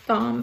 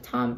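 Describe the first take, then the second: First: The name begins with a 'th' sound. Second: The name begins with a plain 't' sound. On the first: The speaker calls it wrong. "I was pronouncing his name as Thom forever because it's T H O M" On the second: The speaker calls it right. "it's pronounced Tom. So I'm gonna pronounce it Tom"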